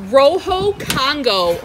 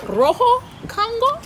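First: "Rojo Congo" drawn out, falling at the end; name announced. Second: "Rojo Congo" high, rising into a question. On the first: Reading the new plant's name to viewers, slow falling announcement. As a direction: say "Rojo Congo" slowly as a statement. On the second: Checking the plant's name aloud, high questioning rise. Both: Real, not acted.

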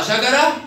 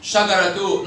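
First: شجرة said as "shagarah"; pausal haa. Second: شجرة تو as one word "shagaratu"; sounded taa. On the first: Teacher repeats pupil's word, شجرة ending in -ah. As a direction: end شجرة on h. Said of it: "نطقت هاء مرة". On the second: Teacher repeats pupil's word, شجرة تو ending in -tu. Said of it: "وتاء مرة". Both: Shown as a demonstration.

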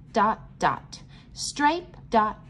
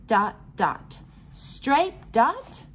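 No difference in how they are said.

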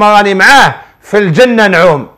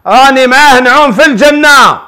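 First: Said in the usual way. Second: Higher, imitating the contented wife; blissful wife. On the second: Sheikh showing how the wife said it, higher and blissful. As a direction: sound like a wife lost in happiness. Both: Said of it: "هكذا،".

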